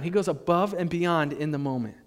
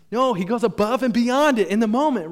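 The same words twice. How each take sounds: First: Said in the usual way. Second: Louder and higher, leaning on "beyond"; emphatic. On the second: Shown as a demonstration. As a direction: preach "above and beyond" with weight. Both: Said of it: "That's what I want you to write down".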